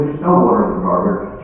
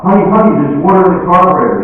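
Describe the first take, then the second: First: Understated, lower contradiction; dismissive husband. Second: High, loud, urgent announcement; alarmed wife. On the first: Husband answering his alarmed wife, mildly dismissive. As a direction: calmly shut down the claim. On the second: Wife running into the house to tell her husband, alarmed. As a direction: burst in with the news, raised voice. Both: Acted.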